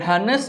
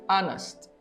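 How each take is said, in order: First: The h at the start is pronounced. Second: The h at the start is not pronounced. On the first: The speaker calls it wrong. "bukan honest" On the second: The speaker calls it right. "tapi honest; itu adalah silent H"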